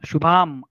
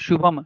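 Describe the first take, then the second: First: The second vowel is long. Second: The second vowel is short. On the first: The speaker calls it wrong. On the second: The speaker calls it right.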